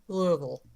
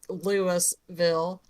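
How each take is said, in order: First: It is pronounced the way locals say it. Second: It is pronounced letter by letter as spelled. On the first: The speaker calls it right. "it's not Louisville, it's Louisville" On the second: The speaker calls it wrong. "is spelled like Louisville"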